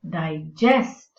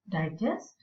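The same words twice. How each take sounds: First: The stress is on the second syllable. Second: The stress is on the first syllable. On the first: It is used as a verb. "So nouns and verbs" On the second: It is used as a noun. "So nouns and verbs"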